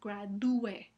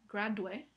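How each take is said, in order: First: The u and e are in separate syllables. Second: The u and e merge into one syllable. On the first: The speaker calls it right. "sino gradúe" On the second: The speaker calls it wrong. "no se pronuncia gradue"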